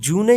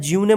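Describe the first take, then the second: First: It is said with an added final syllable, joonay. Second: It is said with a y glide and extra syllable. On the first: "जूने या ज्यूने मत पढ़िएगा" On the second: "जूने या ज्यूने मत पढ़िएगा"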